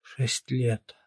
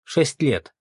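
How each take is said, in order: First: Hushed, shocked echo; gasped dismay. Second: Firm, louder, higher threat; intimidating. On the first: Mother hearing her son's possible sentence, gasping. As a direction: repeat it faintly, aghast. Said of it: "ахнула Ирина Фёдоровна". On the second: Captain threatening the suspect with prison, intimidating. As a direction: state the sentence to scare him. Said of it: "припугнул он". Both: A narrator's reading.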